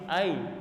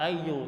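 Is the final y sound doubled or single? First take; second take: single; doubled. First: The y sound is single, ending the word. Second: The y sound is doubled and followed by u. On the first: The speaker calls it right. "tetapi ay. Hamzah ya-nya disukun" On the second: The speaker calls it wrong. "tidak masuk dalam kata ayyu"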